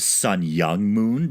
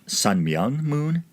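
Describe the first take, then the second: First: The middle name starts with a Y sound. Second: The middle name starts with an M sound. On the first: The speaker calls it wrong. "I always thought it was Sun Young Moon" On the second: The speaker calls it right. "but looks like Sun Myung"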